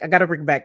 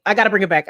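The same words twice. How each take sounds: First: Said in the usual way. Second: Louder eager call to replay; excited replay call. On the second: Real, not acted.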